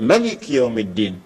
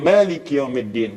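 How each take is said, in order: First: The first vowel of Malik is said short. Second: The first vowel of Malik is held long. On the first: "dibaca pendek" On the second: "ya panjang"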